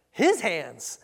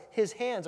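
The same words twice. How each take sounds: First: Doubting emphasis on "his"; stress on "his". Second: Said in the usual way. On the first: Shown as a demonstration. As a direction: punch "his" loudly in disbelief. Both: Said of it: "catch the intonation there".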